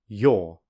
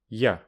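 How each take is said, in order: First: The vowel is full and clearly pronounced. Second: The vowel is reduced to a weak schwa. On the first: "I'll firstly say the strong form" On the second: "then the weak form"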